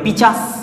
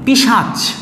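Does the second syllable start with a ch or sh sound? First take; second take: ch; sh. First: The ch sound comes before the s sound. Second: The sh sound comes before the ch sound. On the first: "মাঝে মাঝে আমরা তাড়াহুড়ো করতে গিয়ে এইভাবে বলি" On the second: "আমি বললাম পিশাচ"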